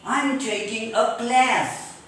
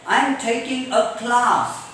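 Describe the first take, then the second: First: CLASS with front "a" as in cat; slow, cat vowel on CLASS; American class. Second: CLASS with long open "ah", "klaas"; broad British vowel on CLASS. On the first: Teacher giving American example, CLASS with cat vowel. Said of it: "In American English". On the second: Teacher giving British example sentence, CLASS as "klaas". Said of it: "In British English". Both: Shown as a demonstration.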